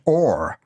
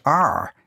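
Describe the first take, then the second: First: "or" as the letter's name, rhyming with "more"; the letter R pronounced "or"; Dublin letter R. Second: "R" pronounced "ar", rhyming with "car"; the letter "R" as "ar"; standard letter R. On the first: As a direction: say R as a drawn-out "or". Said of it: "I pronounce it or". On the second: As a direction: say "R" with an open ah vowel. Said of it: "some people pronounce it R". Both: Shown as a demonstration.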